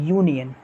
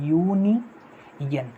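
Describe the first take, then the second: First: Said in the usual way. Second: "यूनियन" stretched very slowly, the "यू" sound held long; drawn-out pronunciation. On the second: Shown as a demonstration. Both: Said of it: "यू ऐसे बोलते हो ना".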